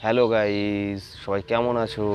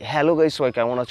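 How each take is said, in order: First: It is said in a plain, ordinary way. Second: It is said in a smart, lively way.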